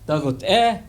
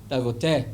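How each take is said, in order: First: The greeting is lively, with a varied tone. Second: The greeting is plain, with a level tone. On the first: The speaker is happy and in a good mood. The speaker calls it right. "I want you to say it with expression" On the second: The greeting carries no personal feeling. The speaker calls it wrong. "instead of saying"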